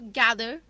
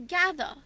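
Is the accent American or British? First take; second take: American; British. First: It is said in an American accent. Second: It is said in a British accent. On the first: "somebody with an American accent ... they'd say master or gather" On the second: "We can say gather"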